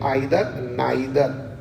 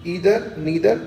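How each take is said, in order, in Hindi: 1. इन शब्दों की शुरुआत 'eye' स्वर ध्वनि से होती है। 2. इन शब्दों की शुरुआत 'ee' स्वर ध्वनि से होती है।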